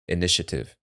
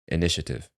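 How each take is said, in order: First: It is said quickly with syllables squeezed together. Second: It is said quickly with syllables squeezed together.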